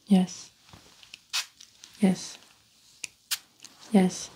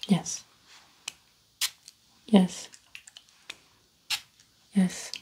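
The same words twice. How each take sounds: The two takes are said the same way.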